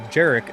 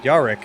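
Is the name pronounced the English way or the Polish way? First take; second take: English; Polish. First: The name is given an English pronunciation. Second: The name is given a Polish pronunciation. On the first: This is the speaker's own way of saying his name. The speaker calls it right. "I pronounce it Jarek" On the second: This is the way a Polish speaker would say the name. The speaker calls it wrong. "and not Jarek. I'm not Polish"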